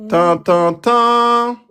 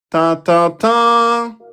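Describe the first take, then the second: First: The last syllable is long and prominent. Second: The same.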